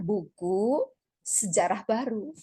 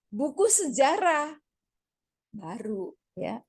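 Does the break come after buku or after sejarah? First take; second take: after buku; after sejarah. First: Sejarah and baru are grouped together. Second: Buku and sejarah are grouped together.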